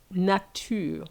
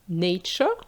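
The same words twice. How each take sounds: First: It is pronounced the French way. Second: It is pronounced the English way. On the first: "versus nature" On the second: "nature in English"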